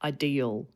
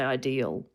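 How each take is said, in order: Both takes have the same delivery.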